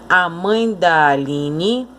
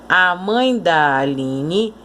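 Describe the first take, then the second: Both takes have the same delivery.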